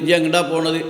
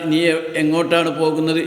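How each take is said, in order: First: The final verb is said in a shortened form. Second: The final verb is said in its full form.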